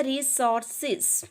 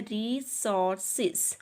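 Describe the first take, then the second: First: Said in the usual way. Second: resources slowly split as रि... सोर... सेज; slow teacherly three-part resources; syllable by syllable. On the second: Shown as a demonstration. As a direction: sound out resources in three separate beats. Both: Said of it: "ये three syllable word है".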